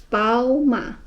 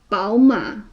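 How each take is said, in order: Both takes have the same delivery.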